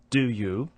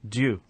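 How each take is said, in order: First: The two words are said separately and fully. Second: The two words merge into one sound.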